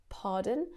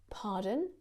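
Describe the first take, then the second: No difference in how they are said.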